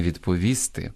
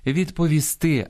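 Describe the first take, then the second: First: Відповісти stressed on -ВІС-; wrong stress. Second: Відповісти stressed on the final -ТИ; correct stress. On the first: (наголос на передостанньому складі: відповісти) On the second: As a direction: slowly lift the last syllable of відповісти. (наголос на останньому складі: відповісти) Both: Shown as a demonstration. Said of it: "а не відповісти".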